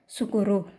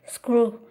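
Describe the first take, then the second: First: Vowels are inserted after each of the first consonants. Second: The consonant cluster is said without added vowels.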